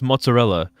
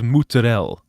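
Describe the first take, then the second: First: The word is said in a plain English way. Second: The word is said in a put-on Italian way. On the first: The speaker calls it right. "you do not pronounce mozzarella as" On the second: The speaker calls it wrong. "fake Italians ... they do not say mozzarella in in in fucking Italy"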